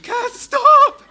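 It is screamed like a forty-year-old woman.

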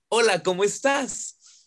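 It sounds happy, as if smiling.

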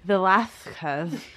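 It is said with a lisping Habsburg accent.

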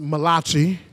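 It is said in an Italian accent.

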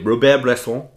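The name is said with exaggerated French pronunciation.

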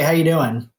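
It is said lightly, as a quick greeting. It is a routine greeting that expects a quick 'fine'. "if I said, "Hey, how you doing?" 6 weeks ago, you're like, "I'm good, I'm fine,""

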